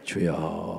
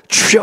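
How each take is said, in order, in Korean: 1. 냉정하고 무미건조하게, 힘 없이 말합니다. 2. 간절한 힘을 담아 큰 소리로 부르짖습니다. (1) "냉랭하게 주여 이러고 있는 거" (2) "주여 하고 나가는 거"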